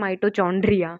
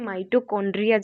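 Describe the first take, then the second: First: The middle consonant is a 'ch' sound. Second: The middle consonant is a 'k' sound. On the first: The speaker calls it wrong. "कई बच्चे से बोलते हैं माइटोचॉन्ड्रिया, तो वो गलत होगा" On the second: The speaker calls it right. "ये माइटोकॉन्ड्रिया जैसे ही हम प्रोनाउंस करेंगे"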